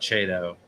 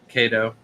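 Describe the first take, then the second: First: The word begins with a CH sound. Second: The word begins with a hard K sound. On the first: The speaker calls it wrong. "the saltwater realm call it Chato" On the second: The speaker calls it right. "C H in science is pronounced as a K"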